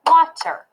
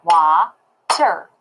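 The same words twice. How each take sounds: First: Said in the usual way. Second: "wa-ter" in two separated beats; "wa-ter" slow, broken after "wa"; split into syllables. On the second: Shown as a demonstration. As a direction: clap out "wa-ter" slowly, pausing between syllables. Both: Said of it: "I would clap wa-ter".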